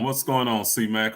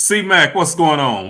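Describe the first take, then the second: First: Said in the usual way. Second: Loud, high shout-out to a friend; big happy hello across the room; excited greeting. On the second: Real, not acted. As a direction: call his name out with a burst of joy.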